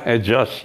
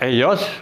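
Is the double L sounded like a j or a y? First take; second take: j; y. First: The double L is sounded like j. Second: The double L is sounded like y. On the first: "Ejos seperti jeh" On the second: "bisa Eyos"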